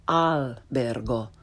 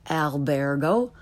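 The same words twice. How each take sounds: First: "albergo" slowly, with open Italian ah; correct Italian pronunciation. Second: "albergo" starting with English short a; learner's mispronunciation. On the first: Teacher corrects beginners, slow "albergo" with Italian ah. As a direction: start "albergo" with a as in father, pure final o. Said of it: "follow it with the correct pronunciation". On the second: Teacher shows beginners' mistake, "albergo" with English short a. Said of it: "first the way most people". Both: Shown as a demonstration.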